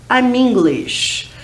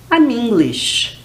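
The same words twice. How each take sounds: The two takes are said the same way.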